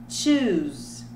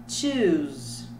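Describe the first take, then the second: No difference in how they are said.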